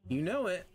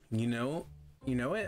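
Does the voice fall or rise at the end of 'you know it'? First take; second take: falls; rises. First: The voice falls at the end, like a statement. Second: The voice rises at the end, like a question. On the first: The speaker calls it wrong. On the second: The speaker calls it right.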